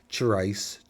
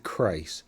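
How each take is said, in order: First: The name begins with a ch sound. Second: The name begins with a k sound. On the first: The speaker calls it wrong. "I think I hear some people trying to go a ch race" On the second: The speaker calls it right. "It's Crace"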